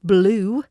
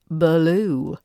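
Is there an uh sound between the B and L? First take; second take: no; yes. First: No uh sound comes between B and L. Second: An uh sound comes between B and L.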